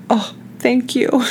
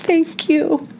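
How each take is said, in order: First: Grateful thank you. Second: Squeaky high-pitched thanks; high squeaky thank you. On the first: Grateful to gentle jaw massage. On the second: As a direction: gush it out in a tiny high voice. Repeats thanks higher, breathy. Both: Retold or imitated.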